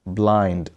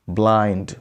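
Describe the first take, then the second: No difference in how they are said.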